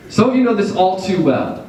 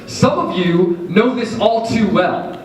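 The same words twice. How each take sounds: First: "you" stressed, said plainly. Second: "Some" stressed, said slowly. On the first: Preacher repeating line to congregation, stressing "you". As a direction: lean on "you", knowing. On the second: Preacher repeating line to congregation, stressing "Some". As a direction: lean on "Some", slow and heavy. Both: Shown as a demonstration. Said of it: "repeated for emphasis".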